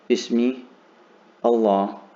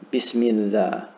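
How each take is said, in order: First: The words are said separately, with a break. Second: The words run together with no break. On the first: The speaker calls it wrong. "I'm not going to say" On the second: The speaker calls it right. "going to sort of run into each other"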